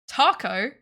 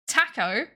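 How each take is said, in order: First: The word is said with an American accent. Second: The word is said with a British accent. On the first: "Taco is American slash Australian" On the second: "Taco is English"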